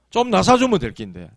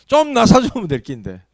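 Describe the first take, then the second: First: Said in the usual way. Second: Higher, louder plaintive wish; voiced complaint of someone long unwell; exasperated wishing. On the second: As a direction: press the wish out emphatically. Repeats the sufferer's wish more urgently.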